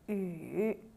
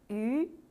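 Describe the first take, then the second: First: The pitch dips low then rises. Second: The pitch rises from middle to high.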